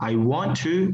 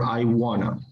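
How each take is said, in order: First: Both words 'want to' are said fully and separately. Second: 'Want to' is blended into one reduced word. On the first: It is the formal, academically correct form. "I was told to to be formal, okay, academically correct" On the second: It is the usual everyday form. "it's usually I wanna"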